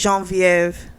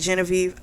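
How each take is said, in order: First: The name is said with French pronunciation. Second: The name is said with English pronunciation. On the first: "in French, they would say" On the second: "Here, I guess we would say"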